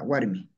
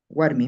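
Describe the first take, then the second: First: Said in the usual way. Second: "Warmi" closed on m, as warmim; "Warmi" with an added final m; silent final I. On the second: Shown as a demonstration. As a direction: drop the suffix's i, ending "Warmi" in a hum of m. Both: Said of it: "la I no lo pronuncio".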